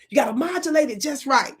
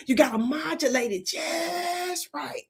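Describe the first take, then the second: First: Said in the usual way. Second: Higher and slow, drawn out; modulated. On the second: Shown as a demonstration. Comedian demonstrating modulation for the audience.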